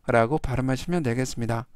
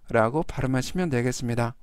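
The two takes are said the same way.

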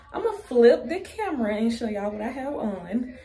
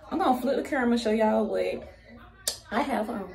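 First: Said in the usual way. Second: Out of breath, words rushed; breathless, gasping between words; running out of air. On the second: Real, not acted. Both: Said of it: "I'm running out of breath".

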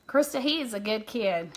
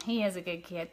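First: Said in the usual way. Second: Softer echo. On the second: Real, not acted. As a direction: say it again quietly, to yourself.

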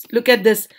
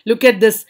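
Both takes have the same delivery.

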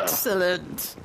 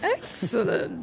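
First: Whispered villainous "Excellent". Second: Slow villain voice. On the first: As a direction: hiss "Excellent" like a scheming villain. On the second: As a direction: stretch "Excellent" like a gloating villain. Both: Pretend. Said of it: "You sound like a villain".

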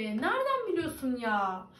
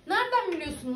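First: Said in the usual way. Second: Nereden pushed up, then falling; mock-offended comeback; higher indignant repeat. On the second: Real, not acted.

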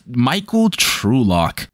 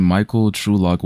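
First: Slow, drawn-out hint of a Texas drawl; mock Texan name. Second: Said in the usual way. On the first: Shown as a demonstration. Mocking the gunman's name as very Texas, slow drawl. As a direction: savor the name like a good ol' Texan, slowly. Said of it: "this does sound like a Texas". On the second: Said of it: "what the fuck are these names".

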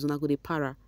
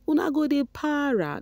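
First: Said in the usual way. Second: Higher, teasing Pidgin taunt; mock taunt. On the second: Mocking rival fans in Pidgin, higher voice.

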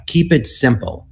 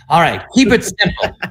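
First: Said in the usual way. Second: Higher, played-up relieved resolve; comic revelation, pitched up; eureka moment. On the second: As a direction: act out seizing on the advice. Seizing on the overheard advice.

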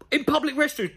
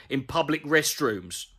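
First: High-pitched, disbelieving repeat; incredulous echo. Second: Said in the usual way. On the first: Real, not acted. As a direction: throw the words back in disbelief. Incredulously echoes the line just read.

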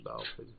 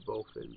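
First: "bowfin" with "ow" as in cow, ending clipped to "fuh"; other way to say bowfin. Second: "bowfin" with a long "oh", like BOH-fin; bowfin said two ways. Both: Shown as a demonstration. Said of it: "however you say it".

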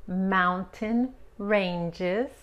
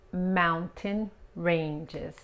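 First: "Mountain ranges" drawn out very slowly; slow model. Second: "Mountain ranges" again very slowly, calmer; slow repeat. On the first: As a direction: stretch "Mountain ranges" syllable by syllable. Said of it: "teacher models slowly". ("Mountain ranges" muy despacio) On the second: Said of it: "repeated slow model". ("Mountain ranges" lento y tranquilo) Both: Shown as a demonstration.

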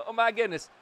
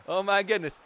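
The two takes are said the same way.

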